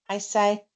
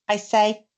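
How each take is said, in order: Both takes have the same delivery.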